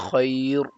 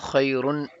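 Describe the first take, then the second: First: The word ends bare, with no -un ending. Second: The word ends with an added -un ending. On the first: The reader stops after this word. "If you stop, you say khair" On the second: The reader carries on without stopping. "If you read it continuously, then khairun"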